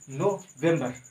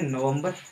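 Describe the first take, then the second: First: It is said syllable by syllable, like 'no-vem-ber'. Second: It is said the everyday way, like 'nuh-vember'. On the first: This pronunciation helps remember the spelling. "सीधा उच्चारण बोले तो" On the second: This is how the word is normally read. "पढ़ते हैं नवंबर"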